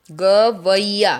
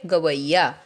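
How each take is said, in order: First: गवैया stretched very slowly, syllable by syllable, ga-vai-ya; slow demo pronunciation. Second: Said in the usual way. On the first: Shown as a demonstration. Teacher to children, sounding out गवैया slowly. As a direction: draw out गवैया so the vai is heard. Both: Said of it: "देखो वैया बना ना यहाँ पे".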